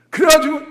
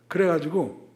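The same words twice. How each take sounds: First: Excited high. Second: Said in the usual way. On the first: Retold or imitated. Excited retelling.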